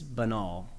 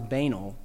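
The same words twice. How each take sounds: First: "banal" as buh-NAL, stressed last; correct pronunciation. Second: "banal" as BAY-nul, stressed first; mistaken pronunciation. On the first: Teacher giving the correct word, "banal" stressed on last syllable. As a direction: land softly on the second syllable of "banal". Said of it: "It's banal". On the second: Teacher admitting an old mistake, "banal" stressed on first syllable. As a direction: rhyme "banal" with anal. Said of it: "I always thought it was". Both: Shown as a demonstration.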